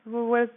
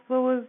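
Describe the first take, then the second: No difference in how they are said.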